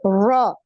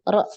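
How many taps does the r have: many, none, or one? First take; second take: none; one. First: The r has no trill at all. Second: The r is tapped exactly once. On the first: The speaker calls it wrong. "seperti orang Inggris ... nggak ada getarannya" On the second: The speaker calls it right. "getarannya sekali"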